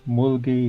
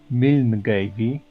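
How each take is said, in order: First: The name is said in a short, clipped form. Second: The name is said with every written letter sounded. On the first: This is how the name is really said. "the names the Paul writes for me is Mulgi" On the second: This is how a reader would guess it from the spelling. "That's how I would read it"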